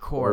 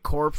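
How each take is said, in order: First: The word ends without P or S sounds. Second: The word ends with audible P and S sounds. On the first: The speaker calls it right. "I'm pretty sure it's core" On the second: The speaker calls it wrong. "it has a P in there... It also has an S"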